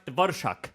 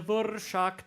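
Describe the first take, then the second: First: "Dvorak" as VOR-shak, short r before sh; quicker pronunciation. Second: "Dvorak" with a long rolled r turning into sh; Czech pronunciation. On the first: Podcaster repeats the name, "Dvorak" as quick VOR-shak. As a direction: say "Dvorak" briskly, without the long trill. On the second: Podcaster shows off Czech, "Dvorak" with long rolled rzh. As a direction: draw out the buzzing rolled fricative in "Dvorak". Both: Shown as a demonstration. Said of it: "post Alveolar rolled fricative".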